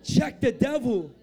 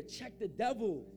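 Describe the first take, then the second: First: Slow, emphatic preacher's command; forceful command. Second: Slow, softer, measured command; restrained instruction. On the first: Preacher rousing congregation to tell neighbors, forceful. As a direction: repeat it with full preaching force. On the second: Preacher telling congregation what to say, restrained. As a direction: say it slowly, held back. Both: Real, not acted.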